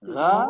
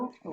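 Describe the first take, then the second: First: The vowel sounds like an open 'aa'. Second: The vowel sounds like a rounded 'o'. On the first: The speaker calls it wrong. "गैन की गा नहीं" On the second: The speaker calls it right. "गौ औ जैसी आवाज आएगी ना"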